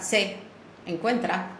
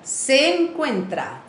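First: The two e sounds are said separately. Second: The two e sounds run together as one. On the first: The speaker calls it wrong. "nicht sagt se encuentra" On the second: The speaker calls it right. "sondern se encuentra, zusammen"

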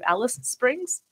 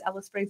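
First: The name is said with every sound. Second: The name is run together and clipped. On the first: This is the form nobody uses. "no one says the full name" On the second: This is how locals actually say it. "Everyone says"

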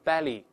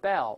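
First: A vowel sound follows the final L. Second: The word ends on the L sound. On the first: The speaker calls it wrong. "不读成belly" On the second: The speaker calls it right. "读成bell"

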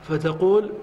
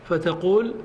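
No difference in how they are said.

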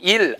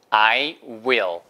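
First: It is run together with no w sound. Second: The w is made with rounded, pushed-out lips. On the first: The speaker calls it wrong. "IL 아니에요. 절대로" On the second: The speaker calls it right. "I, 그 다음에 입술 내밀고 will"

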